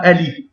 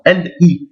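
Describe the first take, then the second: First: "L I" run together as "e-li"; wrongly linked. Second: "L I" with a break after L; separated, no liaison. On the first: Teacher warning against a mistake, "L I" linked. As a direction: slide L straight into "I". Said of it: "On dit pas". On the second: Teacher correcting the mistake, "L I" separated. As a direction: stop on L, restart on "I". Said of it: "On sépare". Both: Shown as a demonstration.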